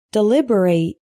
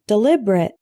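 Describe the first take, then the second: First: DELIBERATE ending in a full "rate"; long A in the last syllable of Deliberate; verb pronunciation. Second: DELIBERATE ending in a weak "rit"; reduced last syllable in Deliberate; adjective pronunciation. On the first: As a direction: say Deliberate as dih-LIB-er-ayt. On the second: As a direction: say Deliberate as dih-LIB-er-it. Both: Shown as a demonstration. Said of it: "Practice the pronunciation".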